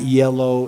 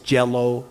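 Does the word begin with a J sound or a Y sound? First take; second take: Y sound; J sound. First: The word begins with a Y sound. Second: The word begins with a J sound. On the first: "pronounce the letter Y" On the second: "the way we pronounce a letter J"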